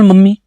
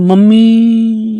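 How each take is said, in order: First: The word is said at normal length. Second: The word is drawn out long, like calling out.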